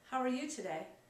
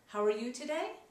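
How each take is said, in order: First: It sounds neutral and comfortable. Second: It sounds warm and eager to connect. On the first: The asker is at ease and neither pushing nor withdrawing. "Neutral, comfortable" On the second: The asker wants to build rapport. "shows trying rapport"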